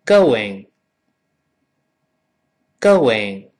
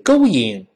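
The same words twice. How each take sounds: First: "going" as go-wing with a w glide; slow, louder "going", w inserted before ing; correct model. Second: "going" as go-ing without a w; wrong version. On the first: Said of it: "跟老师念". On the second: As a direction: leave the w glide out of "going". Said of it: "所以不是". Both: Shown as a demonstration.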